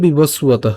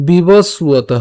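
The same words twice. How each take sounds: First: বিবস্বত as one quicker word; run together. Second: বিবস্বত split as bibos, su-o-to; broken up. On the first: Teacher shows the joined form, বিবস্বত in one piece. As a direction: say বিবস্বত with no break. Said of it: "একসাথে উচ্চারণ করলে". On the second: Teacher shows the split form, বিবস্বত in parts. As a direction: sound out বিবস্বত in drawn-out parts. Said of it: "ভেঙেছি". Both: Shown as a demonstration.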